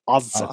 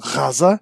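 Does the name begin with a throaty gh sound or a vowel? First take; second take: vowel; gh sound. First: It begins with a vowel, Israeli style. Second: It begins with a throaty Arabic gh sound.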